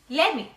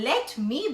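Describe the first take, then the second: First: The words are blended into one reduced word. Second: Both words are said fully and separately. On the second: "let me becomes lemme"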